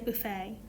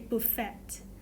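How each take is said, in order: First: The word ends without any T sound. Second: The word ends with a clear T sound. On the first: The speaker calls it right. "we don't really pronounce a T, we say buffet" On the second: The speaker calls it wrong. "we don't say buffet"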